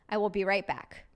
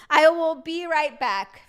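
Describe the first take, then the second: First: Said in the usual way. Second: Slow and louder, every word stretched; playful slow declaration; mock grand announcement. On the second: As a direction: announce it like a big exit.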